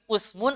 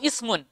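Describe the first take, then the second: First: The first vowel is a rounded u sound. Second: The first vowel is a front i sound. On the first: "bidhammil hamzati" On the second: "wa kasriha"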